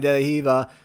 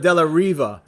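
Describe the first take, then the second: First: The last word begins with an H sound. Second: The last word begins with an English R sound.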